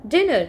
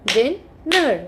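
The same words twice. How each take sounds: First: Said in the usual way. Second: "dinner" drawn out as din, ner; split into syllables. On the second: Shown as a demonstration. Teacher showing children two syllables, "dinner" split as din, ner. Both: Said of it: "if we have two syllables".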